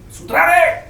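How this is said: It is said with extreme anger.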